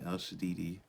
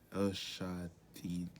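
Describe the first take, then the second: First: The second word has three syllables, ending -didi. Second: The second word has two syllables, ending -dai. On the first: The speaker calls it wrong. "Let me make sure I'm saying that right" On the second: The speaker calls it right. "It means God Almighty"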